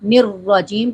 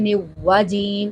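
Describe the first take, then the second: First: A clear r is pronounced before the w. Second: The r is dropped and w is doubled. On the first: The speaker calls it right. "निर्वाजीम पढ़ना है" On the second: The speaker calls it wrong. "रा पढ़ते ही नहीं है"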